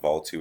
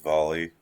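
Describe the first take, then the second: First: The name ends with a 'two' sound. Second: The name ends with a 'lee' sound. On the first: The speaker calls it wrong. "It's not Vol two" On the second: The speaker calls it right. "it's Volley"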